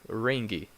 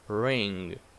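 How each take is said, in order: First: A hard G sound is released after the NG. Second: The word ends on NG with no hard G. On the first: The speaker calls it wrong. "So you do not say ringy" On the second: The speaker calls it right. "This G, it's not pronounced like that"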